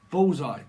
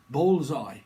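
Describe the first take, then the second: No difference in how they are said.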